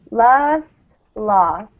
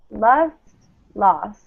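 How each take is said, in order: Both takes have the same delivery.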